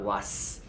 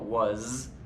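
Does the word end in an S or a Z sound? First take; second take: S; Z. First: The word ends in a voiceless S sound. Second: The word ends in a voiced Z sound. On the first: The speaker calls it wrong. "not was" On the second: The speaker calls it right. "or really the Z sound of was"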